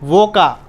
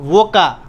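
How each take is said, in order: The two takes are said the same way.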